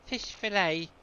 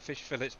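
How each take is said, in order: First: Fillet is pronounced in a French style. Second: Fillet is pronounced in an English style. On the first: This is how some other people say it. "some people say fish fillet. Um, obviously French, isn't it?" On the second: This is the speaker's own usual way of saying it. "I call it fish fillets myself"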